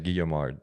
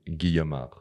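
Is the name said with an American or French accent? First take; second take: American; French. First: The name is said with an American accent. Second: The name is said with a French accent.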